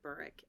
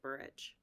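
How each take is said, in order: First: The name ends with a hard k sound. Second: The name ends with a soft ch sound. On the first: This is how it is said in the UK. "the U K pronounces it Burrick" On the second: This is how it is said in the US. "the U S pronounces it Burrich"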